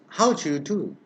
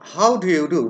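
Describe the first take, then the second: First: The d and y merge into a j sound. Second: The d and y sounds are kept apart.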